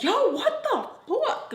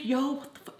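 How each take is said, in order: First: Very high, drawn-out exasperated outburst; genuinely annoyed friend. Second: Said in the usual way. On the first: Retold or imitated. Friend reacting as she walks by, truly annoyed. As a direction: stretch it out, pitched way up, annoyed. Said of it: "so annoyed". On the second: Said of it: "Not even a fake".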